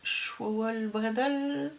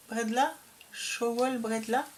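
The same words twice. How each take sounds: First: "Schwowel Bredel" said slowly and carefully, ending in -el; first careful attempt at "Schwowel Bredel"; unsure Alsatian word. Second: "Schwowel Bredla" with the ending changed to -la; retry it as "Bredla", ending in an open -a; self-correcting to "Schwowel Bredla"; corrected Alsatian word. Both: Shown as a demonstration. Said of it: "Je, je vais pas savoir le dire".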